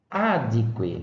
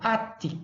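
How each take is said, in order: First: The consonant before 'que' is a D. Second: The consonant before 'que' is a T. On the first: "É o caso do adque" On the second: "Era um T e não é, um D"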